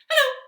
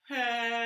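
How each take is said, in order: First: It is said fast. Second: It is said slowly.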